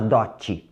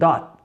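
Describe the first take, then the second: First: The final t is released with a vowel. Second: The final t is held without release. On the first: The speaker calls it wrong. "Não vai falar dote" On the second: The speaker calls it right. "Segura o T"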